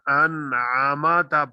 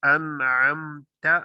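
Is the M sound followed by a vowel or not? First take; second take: vowel; no vowel. First: The M sound is followed by an 'a' vowel. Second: The M sound has no vowel after it. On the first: The speaker calls it wrong. "इसको अगर कोई अनआमाता पढ़ दे" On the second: The speaker calls it right. "यहाँ पे मीम साकिन है"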